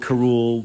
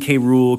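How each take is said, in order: First: The K blends into one word with Rool. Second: The K is said as a separate letter name. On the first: "On the show, they say Karool" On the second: "I've always said K. Rool ever since I was a kid"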